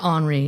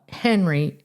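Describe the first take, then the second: First: The name is said with a French accent. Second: The name is said with a Missouri accent.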